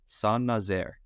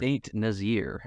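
First: The name is said with a French pronunciation. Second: The name is said with an English pronunciation. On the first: "I'm going to try to pronounce this name in French" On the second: "as I would say if I said it not knowing anything about where it was"

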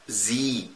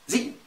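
First: The vowel is long. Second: The vowel is short. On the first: The speaker calls it right. "مدها شويه" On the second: The speaker calls it wrong. "ما تجيش تقول لي"

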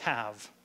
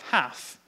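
First: The word ends with a voiced v sound. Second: The word ends with a voiceless f sound. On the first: "instead of have" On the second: "V turns to F"

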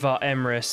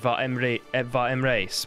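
First: The name is said the anglicized way. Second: The name is said the Nilfgaardian way. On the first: This is the pronunciation used before. "instead of" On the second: This is the pronunciation used now. "I say"

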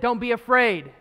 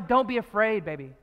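First: It is said in a harsh, commanding tone. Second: It is said in a gentle, loving tone.

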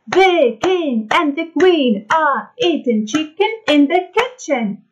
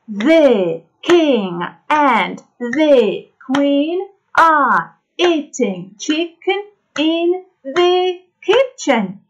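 First: It is said at the fastest pace. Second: It is said at a faster pace.

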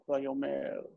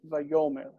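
First: The stress is on the last syllable. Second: The stress is on the second-to-last syllable. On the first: The speaker calls it wrong. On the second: The speaker calls it right. "It's always it's always penultimate accent"

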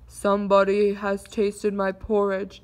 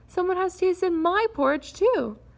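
First: It is said in a low, deep growl. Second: It is said in a soft, mild moan.

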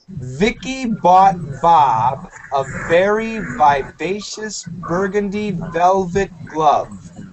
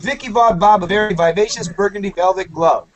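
First: The sentence is said at a slow speed. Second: The sentence is said at a normal speed.

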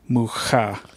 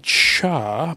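First: The name is pronounced the Czech way. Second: The name is pronounced the Spanish way. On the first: The speaker calls it right. "He's Czech. ... it is pronounced Mucha" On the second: The speaker calls it wrong.

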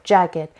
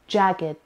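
First: The word is said as two syllables, ending in a separate 'gid' sound. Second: The word is said as two syllables, ending in a separate 'gid' sound.

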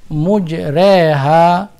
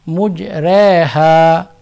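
Both takes have the same delivery.

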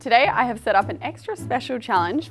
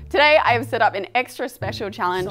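First: It is said with low energy. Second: It is said with more energy and excitement.

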